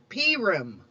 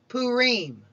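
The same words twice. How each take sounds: First: It is pronounced the Central European Jewish way. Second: It is pronounced the Eastern Jewish way. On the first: "Some Central European communities even call it Purim" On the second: "In Eastern tradition, it is called Purim"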